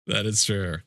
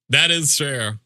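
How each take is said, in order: First: Said in the usual way. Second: "That is true" repeated with THAT punched, louder and higher; emphatic. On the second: Shown as a demonstration. Streamer agreeing with chat, emphatic. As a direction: hit "That" hard the second time.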